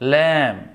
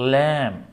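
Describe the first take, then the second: No difference in how they are said.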